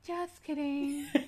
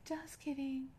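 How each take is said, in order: First: The phrase is said with a lisp. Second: The phrase is said without a lisp. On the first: "with a lisp, actually. Yes" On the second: "But they'd have to say it like that"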